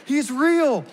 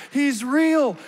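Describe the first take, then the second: No difference in how they are said.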